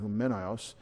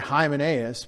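First: The name is pronounced the Greek way. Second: The name is pronounced the English way. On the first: "the E gets the accent" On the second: "We say Hymenaeus"

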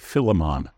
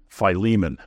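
First: It is said in a British accent. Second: It is said in an American accent.

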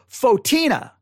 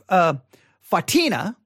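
First: The first vowel sounds like 'oh'. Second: The first vowel sounds like 'ah'. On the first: The speaker calls it right. "Most said, no, it's St. Fotina" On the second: The speaker calls it wrong. "I said St. Fatina, I think is how I said it"

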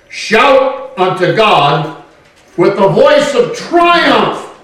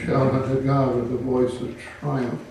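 First: It is read in a loud, lively way. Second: It is read in a flat, subdued way. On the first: The praise is joyful and triumphant. The speaker calls it right. "This sounds kind of positive" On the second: The praise is held back and restrained. The speaker calls it wrong. "I could read it the way some people would like it read"

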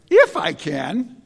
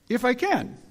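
First: The pitch rises at the end, like a question. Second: The pitch falls at the end, like a statement. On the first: Jesus is asking whether he can. The speaker calls it wrong. "I always read that as if it has a question mark there" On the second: Jesus is stating the words back. The speaker calls it right. "It's just a little statement"

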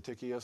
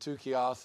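First: The name is said in the usual anglicized way. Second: The name is said the Greek way. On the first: "most of us, I think, probably say tikios" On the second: "is how it would be kind of pronounced in Greek"

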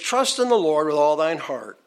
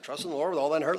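First: It is recited at a normal pace. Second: It is recited at a fast pace.

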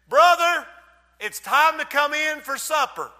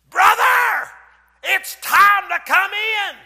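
First: It is said in a gentle, plain tone. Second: It is said in a harsher, sterner tone.

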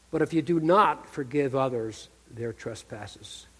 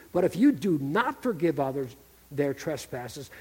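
The two takes are said the same way.

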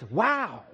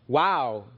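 First: It sounds light and briefly surprised. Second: It sounds deeper and more profound.

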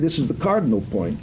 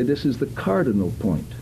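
First: The syllables are clipped and run together. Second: The syllables are clear but sound natural. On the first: The speaker calls it wrong. "But neither do you need to say" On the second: The speaker calls it right. "You can say this is the cardinal point. Now, that doesn't sound unnatural"

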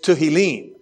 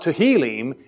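First: The stress is on the last syllable. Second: The stress is on the second-to-last syllable. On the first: The speaker calls it right. "in Hebrew, we tend to accent words on the last syllable" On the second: The speaker calls it wrong. "So it's not Tehillim"

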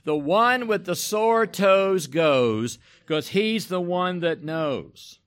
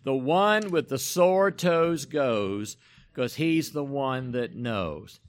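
First: It is said louder, with more enthusiasm. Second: It is said flatly, without enthusiasm.

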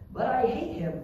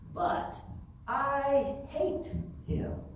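First: It is said in a normal reading voice. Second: It is said in a nasal, whiny voice.

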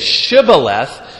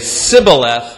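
First: The word begins with a sh sound. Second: The word begins with an s sound. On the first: The speaker is not an Ephraimite. "that's how most of the groups pronounce it" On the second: The speaker is an Ephraimite. "that's a sure indication that you're an Ephraimite"

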